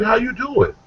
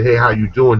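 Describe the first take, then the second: First: Mock-innocent, far above usual pitch; high-pitched protest. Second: Said in the usual way. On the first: Offender excusing himself to the one he stabbed, high protest.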